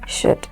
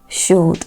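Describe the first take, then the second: First: The word is said without any L sound. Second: An L sound is pronounced in the word. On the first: The speaker calls it right. "They are correctly pronounced" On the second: The speaker calls it wrong. "these words are not pronounced"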